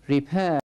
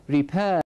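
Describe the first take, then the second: No difference in how they are said.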